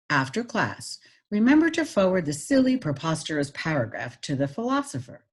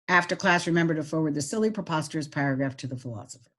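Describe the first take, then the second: First: It is read with pauses and clearly varied pitch. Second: It is read flat, without pauses or pitch changes. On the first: The speaker calls it right. "Now I'm going to add pitch" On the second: The speaker calls it wrong. "without any expression"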